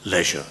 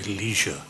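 First: The word is said with a British pronunciation. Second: The word is said with an American pronunciation. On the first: This is how the speaker says it. "not leisure" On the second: This is how people in the United States say it. "they say leisure"

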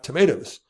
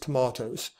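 First: The middle vowel sounds like 'may'. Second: The middle vowel sounds like 'mah'.

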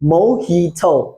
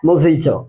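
First: The middle consonant is an h sound. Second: The middle consonant is a j sound. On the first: The speaker calls it right. "এটার উচ্চারণ হবে মোহিটো।" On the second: The speaker calls it wrong. "এইটাকে আমরা উচ্চারণের সময় বলি মজিটো।"

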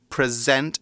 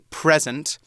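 First: The stress is on the second syllable. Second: The stress is on the first syllable. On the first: It is a verb: to show or cause to exist. "we say present, emphasis on the second syllable" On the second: It is a noun: a gift or the current time. "Not like when we say the noun form, we say present"

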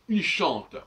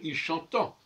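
First: The verb ends on a plain 't' consonant. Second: The verb ends with a nasal 'ent' sound.

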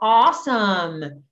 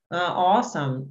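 First: The word is said with lively, excited energy. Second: The word is said flat, without excitement. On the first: The speaker calls it right. "deixa que seja tipo, wow" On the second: The speaker calls it wrong. "Não combina muito falar assim"

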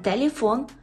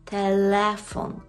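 First: The vowel after l sounds like ye. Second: The vowel after l stays a clear e. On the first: The speaker calls it wrong. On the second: The speaker calls it right.

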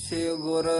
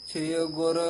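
The two takes are said the same way.

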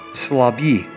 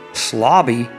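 First: The stress is not on the first syllable. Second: The stress is on the first syllable.

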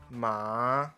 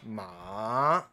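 First: The pitch rises from mid to high. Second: The pitch dips low, then rises again. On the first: "二声Ma 就是从中音滑到最高音" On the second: "三声Ma 完整念的话是从次低音向下滑到最低音，再往上滑到次高音"

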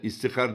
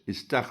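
First: An i follows the t, then an a. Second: A single a follows the t, then hr. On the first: The speaker calls it wrong. "istihar diyenler var. ... Hepsi yanlış" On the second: The speaker calls it right. "İstahr olacak"

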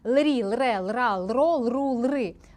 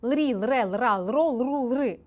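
First: The syllables are read slowly. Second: The syllables are read quickly. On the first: The speaker calls it right. "тому заповільнюємося" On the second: The speaker calls it wrong. "Тепер я спробую швидше"

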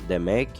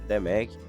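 Both takes have the same delivery.

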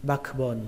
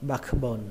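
First: The k sound is clearly pronounced. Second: The same.

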